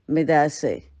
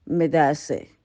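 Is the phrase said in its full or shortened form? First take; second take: shortened; shortened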